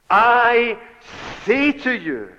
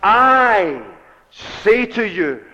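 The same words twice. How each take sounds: First: A second high, loud "I", then "say to you" falling away; stress on I. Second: "I" held high and loud, then "say to you" slower; stress on I. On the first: Preacher repeating the stress on "I" to the congregation. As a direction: hammer the "I" home a second time. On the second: Preacher showing the congregation the stress, loud "I". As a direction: lean hard on the "I" before easing off. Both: Shown as a demonstration. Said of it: "the emphasis on the personal pronoun".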